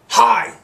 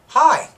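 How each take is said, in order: First: The greeting sounds sharp and annoyed. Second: The greeting sounds cheerful and friendly.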